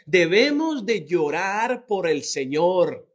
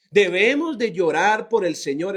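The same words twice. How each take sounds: First: "Debemos" stressed, the whole line drawn out slowly; slow, solemn "debemos de llorar"; slow and weighty. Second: Said in the usual way. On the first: Shown as a demonstration. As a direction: lay each word down slowly.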